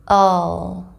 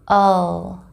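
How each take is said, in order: No difference in how they are said.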